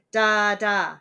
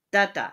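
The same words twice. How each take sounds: First: "Da, da" with two equal, heavy stresses; spondee. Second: "da da" with uneven stress on the two beats; botched spondee. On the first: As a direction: punch both beats of "Da, da" loud and deliberate. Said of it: "and a spondy". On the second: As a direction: attempt two equal beats on "da da" and miss. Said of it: "messed that one up". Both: Shown as a demonstration.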